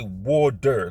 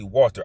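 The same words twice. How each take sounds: First: The O vowel is strongly stressed and drawn out. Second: The O vowel is short and plain. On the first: "I really stress the O" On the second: "I cannot say water"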